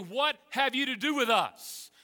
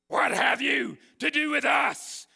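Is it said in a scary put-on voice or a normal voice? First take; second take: normal voice; scary voice. First: It is said in the speaker's normal voice. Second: It is said in a scary, squeaky voice.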